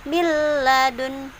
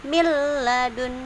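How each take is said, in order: Both takes have the same delivery.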